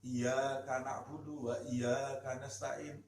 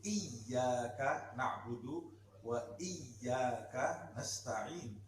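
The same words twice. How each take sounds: First: The y sound is said short, not doubled. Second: The y sound is held long and doubled. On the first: The speaker calls it wrong. "sering kita dengarkan bacaan Fatihah seseorang" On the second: The speaker calls it right. "Padahal ada tasdid"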